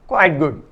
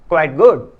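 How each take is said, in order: First: Quite and good carry equal stress. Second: Good is stressed and quite is weak. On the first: It is moderately good. "Quite तथा गुड पर बराबर strength या बल होने पर" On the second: It is almost good, very little less than good. "गुड पर stress, जोर या बल होने तथा वीक क्वाइट होने पर"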